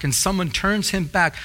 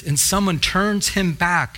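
First: Said in the usual way. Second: Slow and weighty on and someone turns him back; slow emphatic reading. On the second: Shown as a demonstration. To the congregation, drawing attention to the verse, slow and weighty. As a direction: lean on turns so the congregation listens. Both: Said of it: "listen to this".

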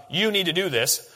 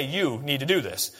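First: "You" pushed out first, the rest of "You need to do this" even; stress on YOU. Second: Said in the usual way. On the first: Shown as a demonstration. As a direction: lean on the word You. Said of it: "this is emphatic". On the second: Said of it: "In Greek, you don't have to do that".

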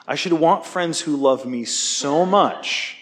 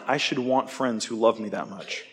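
First: Slower, weightier restatement leaning on "want"; slow emphatic repeat. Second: Said in the usual way. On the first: Real, not acted. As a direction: draw it out slowly so it lands, stressing "want".

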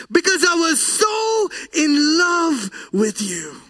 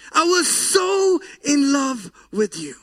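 First: Crying out. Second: Said in the usual way. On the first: Acted. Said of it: "why are you crying?".

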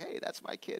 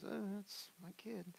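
First: Put-on whispered, pleased "Hey, that's my kid"; proud claim. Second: Put-on higher, slow and soft, a resigned "Oh, that's my kid"; rueful sigh. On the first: Parents proud of their grown child, hushed. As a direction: claim the kid with quiet pride. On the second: Parents embarrassed by their child, slow rueful sigh. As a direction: sigh it out in mock disappointment.

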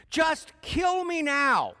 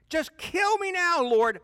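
First: High, loud, slow anguished wail; begging God to end it, high and drawn out; despairing plea. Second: Very high, loud, slow anguished cry; Jonah's louder second plea to the Lord; desperate cry. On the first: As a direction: drag it out like a prophet at the end of his rope. Jonah begs to die. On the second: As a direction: hit the top of the voice, pleading. Repeated, even more desperate. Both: Acted.

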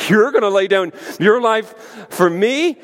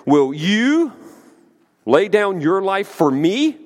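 First: Higher-pitched mock-incredulous question, rising on "me"; sarcastic disbelief. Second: Raised pitch on a pointed "you", rising at "me"; emphatic sarcastic question. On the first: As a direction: throw the claim back with open sarcasm. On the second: Acted. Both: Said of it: "the sarcasm in that question".

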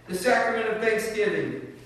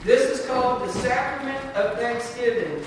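First: Higher, louder solemn title; solemn closing blessing. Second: Raised, higher solemn announcement; solemn closing blessing. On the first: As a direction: proclaim the title, lifted and louder. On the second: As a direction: announce the blessing, lifted and louder. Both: Real, not acted. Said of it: "stand with me this morning for the benediction".

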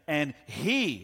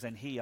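First: "he" hit loud and drawn out; stress on HE. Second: Said in the usual way. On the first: Shown as a demonstration. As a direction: punch "he" like all caps in a text. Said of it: "you putting all caps in a text". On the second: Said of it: "where it says".

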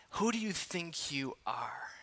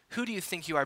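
First: Hushed whisper of the question. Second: Said in the usual way. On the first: Acted. Preacher replaying the scolding to himself, whispering. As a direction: breathe it as if to yourself.

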